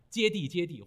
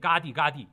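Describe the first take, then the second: First: Each word begins with a 'jie' sound. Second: Each word begins with a 'ga' sound. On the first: This is the Han Chinese reading of the mantra. "我们汉地呢人，就按照汉字去写它" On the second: This is the Tibetan reading of the mantra. "或者念嘎谛嘎谛"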